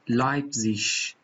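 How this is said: The word ends with a soft ch sound. This is the standard German pronunciation. "تبدیل به ایش میشه... در لهجه استاندارد آلمانی"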